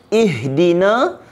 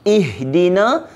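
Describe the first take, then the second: Both takes have the same delivery.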